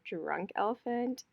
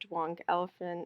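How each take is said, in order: First: The R in Drunk sounds like an R. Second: The R in Drunk sounds like a W. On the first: The speaker calls it right. "instead of Drunk Elephant" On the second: The speaker calls it wrong. "I cannot say my R's when it's a W sound"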